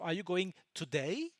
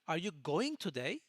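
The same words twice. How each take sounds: First: The word today is stressed. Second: The word going is stressed. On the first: It asks whether today is the day of going. "I'm asking you if it is today that you are going" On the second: It asks about the action of going. "it's about the action"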